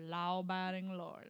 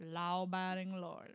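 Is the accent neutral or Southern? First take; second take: Southern; Southern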